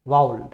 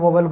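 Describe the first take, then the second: First: The first syllable sounds like 'vow' in 'cow'. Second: The first syllable sounds like 'vo' in 'go'. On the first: The speaker calls it right. "Exact उसका pronunciation क्या होता है" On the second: The speaker calls it wrong. "वॉवल वॉवल बोलते हैं, वो नहीं होता है"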